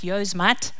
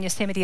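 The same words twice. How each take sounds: First: It is pronounced the way foreigners say it. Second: It is pronounced the local, native way.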